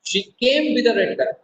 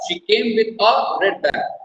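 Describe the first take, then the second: First: The stress falls on the word came. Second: The stress falls on the word a. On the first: She arrived rather than left. "Now I am giving stress on the word केम।" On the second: There was only one bag. "A red bag, not two, not three, one"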